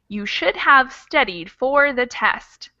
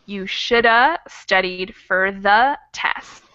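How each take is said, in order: First: Each word of 'should have' is said in full. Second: 'Should have' is squeezed into one weak 'shoulda'. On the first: "instead of saying" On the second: "reduce that and squish together some of those words, making those vowel sounds more like uh"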